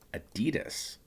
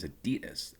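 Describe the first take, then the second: First: It uses the American pronunciation of the name. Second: It uses a non-American pronunciation of the name. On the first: The speaker calls it wrong. "us Americans say is Adidas" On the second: The speaker calls it right. "It is Adidas"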